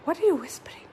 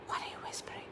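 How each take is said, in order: First: Said in the usual way. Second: Hushed whisper to the bird; breathy secret whisper. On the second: Shown as a demonstration. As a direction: whisper it back softly, no voice.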